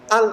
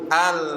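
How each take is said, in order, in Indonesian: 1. Bunyi L ditahan rapat dan terputus. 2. Bunyi L sedikit mengalir. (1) "Itu namanya syid, syiddah" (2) "Jadi ada mengalir sedikit"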